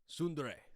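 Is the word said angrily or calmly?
calmly. It is said calmly.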